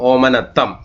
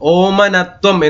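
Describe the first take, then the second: First: The middle consonant is pronounced as 'tt'. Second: The middle consonant is pronounced as 'tv'. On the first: The speaker calls it right. "ഓമനത്തം എന്ന് പറഞ്ഞാൽ മതിയാവും" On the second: The speaker calls it wrong. "ഓമനത്വം എന്ന് പറയേണ്ട കാര്യമില്ല"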